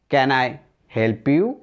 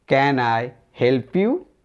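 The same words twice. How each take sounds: The two takes are said the same way.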